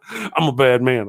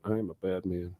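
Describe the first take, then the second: First: Said in the usual way. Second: Much lower, much softer mock villain. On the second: Host repeating his joke to chat, much lower mock villain voice. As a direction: growl it low like a pantomime baddie.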